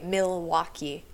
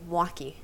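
First: All three syllables are pronounced fully. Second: The first syllable is squeezed to a bare M. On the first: This is how outsiders say it. "normal people say Milwaukee" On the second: This is how locals say it. "in Waukee, you just say Waukee"

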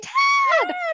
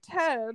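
First: The name is said loudly, with excitement. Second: The name is said plainly, without excitement. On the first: The speaker calls it right. "Gotta say it with excitement" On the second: The speaker calls it wrong. "That's not how you're supposed to say Ted"

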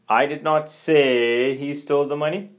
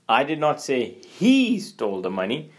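First: The stress falls on the word "say". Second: The stress falls on the word "he". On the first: The speaker implied it but did not say it. "you're more focused on the say parts" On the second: The speaker accuses someone other than him. "you're accusing, but not accusing that person"

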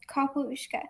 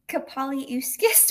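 First: The name is said with three short syllables. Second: The name is said with four syllables, ending in -skis. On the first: This is the pronunciation used in the adaptation. The speaker calls it right. "which is not how I pronounce it in my head at all" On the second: This is how the reader imagined it while reading. The speaker calls it wrong. "which is like adding, like moving all the word letters around"

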